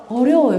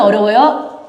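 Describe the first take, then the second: First: Said in the usual way. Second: 어려워요 with a rising question tune; questioning rise. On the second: Real, not acted. (어려워요를 올려 묻는 말투)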